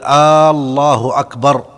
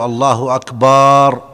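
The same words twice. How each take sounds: First: The opening vowel is drawn out. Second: The vowel after b is drawn out. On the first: The phrase becomes a question. "أن لا يمد الهمزة في الله" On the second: The word means drums. "لا يجوز أن يمد الباء في أكبر"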